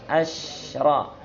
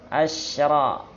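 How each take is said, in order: No difference in how they are said.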